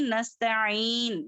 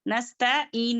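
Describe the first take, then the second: First: नस्तईन with ain squeezed in the throat before een; correct throat ain. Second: नस्तईन with a plain ee, no throat ain; wrong plain ee. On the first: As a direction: sound the throat consonant in नस्तईन. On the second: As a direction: skip the ain in नस्तईन as a mistake. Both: Shown as a demonstration. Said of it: "नस्तईन नहीं".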